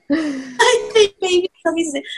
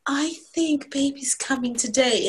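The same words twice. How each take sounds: First: High, louder, barely contained announcement; mock non-excited. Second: Slow, carefully restrained announcement; non-excited voice. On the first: Wife telling husband baby is coming, badly faked non-excitement. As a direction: pretend to be unexcited while excitement leaks through. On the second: Retold or imitated. Wife telling husband baby is coming, deliberately non-excited. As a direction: hold the excitement in, stretching the words out. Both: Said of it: "in a very non-excited voice".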